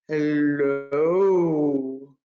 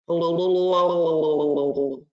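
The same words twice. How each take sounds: First: It is said in a very low voice. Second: It is said in a bubbly underwater voice.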